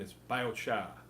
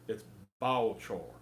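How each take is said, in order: First: It is said in a Boston accent. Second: It is said in a Southern US accent.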